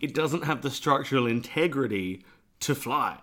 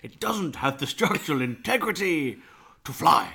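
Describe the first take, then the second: First: It is said in a normal speaking voice. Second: It is said in a put-on professor voice.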